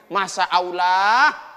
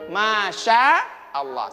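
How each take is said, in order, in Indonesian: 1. Huruf tengahnya bunyi 's' biasa. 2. Huruf tengahnya bunyi 'sh'. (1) "Biasanya orang baca gini" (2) "Kalau sya ya"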